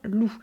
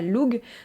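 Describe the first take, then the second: First: The word ends on a vowel, no g. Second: The word ends with a hard g sound. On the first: The speaker calls it right. "ça se prononce bien loup" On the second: The speaker calls it wrong. "ça ne se prononce pas Lug"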